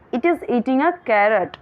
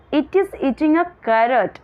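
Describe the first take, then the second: The two takes are said the same way.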